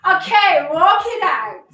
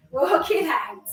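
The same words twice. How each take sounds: First: Louder called "walk it out"; called-out cue. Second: Said in the usual way. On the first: Real, not acted. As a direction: call "walk it out" to the class.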